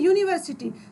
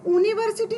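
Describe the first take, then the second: First: The word begins with a 'y' sound. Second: The word begins with a plain vowel sound. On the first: The speaker calls it right. "वाई या का pronunciation हो रहा है" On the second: The speaker calls it wrong. "हम यूनिवर्सिटी नहीं बोल रहे हैं"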